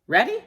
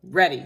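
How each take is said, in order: First: READY high and loud, rising sharply; loud READY with a high rising end; checking question. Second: READY loud and falling, at usual pitch; loud, settled READY with a falling end; confirming answer. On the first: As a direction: ask READY as a bright upward question. One character checks, the other answers. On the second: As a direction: answer READY firmly, tune going down. Answer to the readiness question. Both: A narrator's reading.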